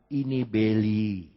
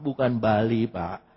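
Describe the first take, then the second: First: The first vowel is an 'e' sound. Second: The first vowel is an 'a' sound. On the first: It is read the English way. The speaker calls it right. "Kalau A dalam bahasa Inggris dibacanya E" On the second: It is read the Indonesian way. The speaker calls it wrong. "bukan Bali"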